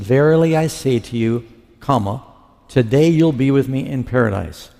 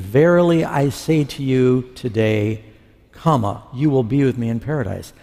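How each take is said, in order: First: The break comes before the word today. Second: The break comes after the word today. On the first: The arrival in paradise happens that same day. The speaker calls it wrong. "verily I say to you, comma, today" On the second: The promise is made today about a later time. The speaker calls it right. "It's supposed to read, verily I say to you today, comma"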